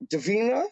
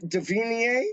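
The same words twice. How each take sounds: First: "Davina" ending in a short -uh; higher, rising "Davina" with -uh ending; trying a pronunciation. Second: "Davina" ending in an -ee-ay sound; higher, rising "Davina" with -ay ending; trying a pronunciation. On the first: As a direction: say "Davina" as duh-VEE-nuh, questioning. Tries the other pronunciation. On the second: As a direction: say "Davina" as duh-VEE-nee-ay, questioning. Tries out ways to say name. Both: Shown as a demonstration.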